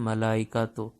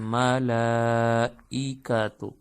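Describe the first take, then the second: First: The 'la' vowel is short. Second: The 'la' vowel is drawn out long. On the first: The speaker calls it wrong. "अमूमन हम लोग लंबा नहीं करते" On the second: The speaker calls it right. "ये मला को लंबा करेंगे"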